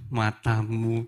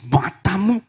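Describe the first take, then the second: First: The word is said in a tender tone. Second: The word is said in an angry tone. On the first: The speaker cherishes the partner. "kalau Bapak Ibu hubungannya baik-baik bisa mengucapkannya dengan nada yang berbeda" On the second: The speaker is angry at the partner. "ada yang ngomongnya dengan emosi"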